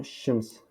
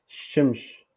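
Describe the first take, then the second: First: "shims" with a final s; corrected "shims", softer, ending on s not sh; prononciation corrigée. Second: "shimsh" with sh at both ends; wrong version "shimsh", last s turned to sh; prononciation fautive. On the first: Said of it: "Mais la correction". (« shims » avec s final) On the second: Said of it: "euh, comme ça". (« shimsh » avec ch à la fin) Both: Shown as a demonstration.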